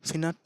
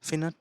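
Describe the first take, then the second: First: The first syllable sounds like 'fin'. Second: The same.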